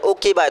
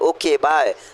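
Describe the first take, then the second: First: It is said in an angry tone. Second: It is said in an affectionate tone.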